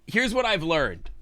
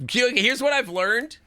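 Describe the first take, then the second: First: Higher start dropping at the end; falling restated read. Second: Much higher, slow, lifting at the end; rising questioning read. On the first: Streamer repeating the note's line, falling restated read. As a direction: restate it with a closing fall. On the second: Streamer reading the note aloud, rising questioning read. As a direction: stretch it upward like a question. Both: Real, not acted.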